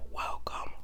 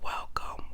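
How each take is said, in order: Both takes have the same delivery.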